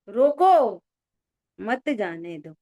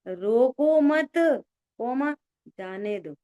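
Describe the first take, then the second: First: The pause comes right after 'roko'. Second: The pause comes right after 'mat'. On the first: Stop him; do not let him go. "तुमने हमसे बोला था मत जाने दो" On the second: Do not stop him; let him go. "हमने बोला था रोको मत, कोमा, जाने दो"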